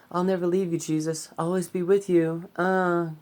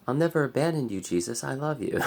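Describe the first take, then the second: First: High, loud whiny pleading Peter; shitty Peter voice. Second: Somewhat higher, louder earnest Peter; a milder take on the disciple's plea; toned-down Peter voice. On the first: A vlogger hams up Peter begging Jesus, high whiny voice. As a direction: overdo a clingy disciple, high and loud. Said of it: "that voice. That was a really shitty voice". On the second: Redoing Peter's promise to Jesus, less overdone. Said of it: "That's better". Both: Retold or imitated.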